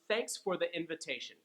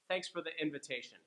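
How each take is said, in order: First: The sentence is said at a slower pace. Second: The sentence is said at a faster pace.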